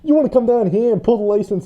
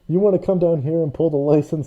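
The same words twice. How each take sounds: First: It is said in a New York accent. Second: It is said in the speaker's ordinary accent.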